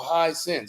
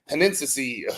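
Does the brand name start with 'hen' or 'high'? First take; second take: high; hen. First: The name starts with 'high' and has two syllables. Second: The name starts with 'hen' and has three syllables. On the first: The speaker calls it right. "oh no, high sense" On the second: The speaker calls it wrong. "I was calling it Henensi"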